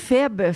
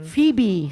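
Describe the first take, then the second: First: The name is said with French pronunciation. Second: The name is said with English pronunciation. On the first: "en français, Feb, c'est moins beau" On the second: "c'est en anglais"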